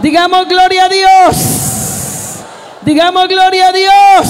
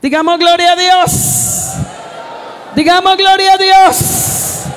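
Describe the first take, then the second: First: High, loud preaching shout; shouted praise call. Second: Preacher's call to praise. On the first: Pastor rousing the congregation to glorify God, full shout. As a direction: belt "Digamos gloria a Dios" out high and loud at the crowd. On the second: Pastor inviting the congregation to glorify God, high drawn call. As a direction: stretch "Digamos gloria a Dios" out high as an invitation. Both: Acted.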